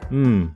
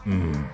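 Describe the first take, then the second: First: It sounds vaguely positive and acknowledging. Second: It sounds dismissive and annoyed.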